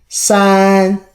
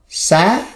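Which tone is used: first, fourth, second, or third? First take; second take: first; second. First: It is said with the first tone. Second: It is said with the second tone.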